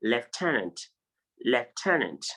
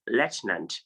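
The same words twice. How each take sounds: First: Lieutenant as lef-TEN-ant; alternative pronunciation. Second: Lieutenant as LET-nant; alternative pronunciation. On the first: Teacher showing what some persons say, lieutenant as lef-TEN-ant. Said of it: "also pronounce this word as". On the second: Teacher offering students another option, lieutenant as LET-nant. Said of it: "you can pronounce it as". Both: Shown as a demonstration.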